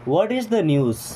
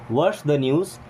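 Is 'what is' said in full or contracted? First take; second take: full; contracted. First: The words what and is are said separately. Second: What and is merge into one short syllable. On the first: "व्हाट इज बोले" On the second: "या व्हाट्स बोले same चीज़ें हैं"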